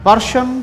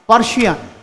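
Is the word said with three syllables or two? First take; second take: two; three. First: It is said with two syllables, English style. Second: It is said with three syllables, Bengali style.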